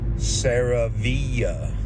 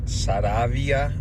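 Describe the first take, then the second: First: The name is said with English pronunciation. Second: The name is said with Spanish pronunciation. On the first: It is said for people who do not speak Spanish. "speaking to my um, non-Spanish friends" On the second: It is said for Spanish speakers. "It is pronounced Saravia in Spanish"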